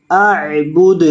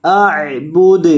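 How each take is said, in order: Both takes have the same delivery.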